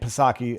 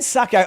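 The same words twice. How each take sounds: First: The initial P is sounded before the s. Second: The initial P is silent, starting with s. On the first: The speaker calls it wrong. "I initially was actually pronouncing her name Psaki" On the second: The speaker calls it right. "it's a silent P. So I'll just I'll pronounce it properly"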